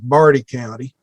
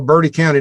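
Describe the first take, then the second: First: The first vowel is said as 'ar'. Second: The first vowel is said with a modern 'er' sound.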